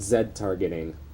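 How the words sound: Z is said the British way, zed.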